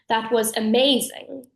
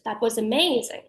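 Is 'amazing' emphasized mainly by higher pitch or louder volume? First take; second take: louder volume; higher pitch. First: Amazing is louder with little pitch change. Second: Amazing jumps up sharply in pitch. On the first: It sounds masculine. "So the masc version would be" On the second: It sounds feminine.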